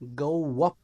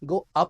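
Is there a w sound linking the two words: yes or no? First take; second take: yes; no. First: A w sound links the two words. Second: The two words have no w sound between. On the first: The speaker calls it right. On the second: The speaker calls it wrong. "गो अप नहीं"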